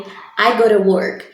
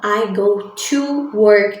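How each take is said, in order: First: The word 'to' is reduced, sounding like 'ora'. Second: The word 'to' is pronounced fully and clearly. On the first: "a pronúncia de assim, ó, ora" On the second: "Ao invés de eu falar"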